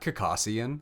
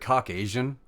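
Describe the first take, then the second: First: The word sounds like 'Caucasus' with an ending. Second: The word ends sounding like 'Asian'. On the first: The speaker calls it right. "It's from the Caucasus Mountains. It's literally pronounced that way" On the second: The speaker calls it wrong. "why the fuck is it Caucasian?"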